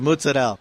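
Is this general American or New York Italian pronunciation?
New York Italian. It is said with a New York Italian pronunciation.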